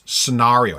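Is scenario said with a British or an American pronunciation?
British. The word is said the British way. The speaker calls it right. "Which is pronounced scenario"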